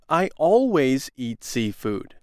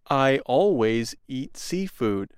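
First: The word always is strongly emphasized. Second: The word always carries no special emphasis. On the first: The speaker is annoyed. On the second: It is simply a habit.

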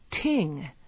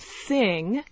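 First: The word begins with a T sound. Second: The word begins with a TH sound.

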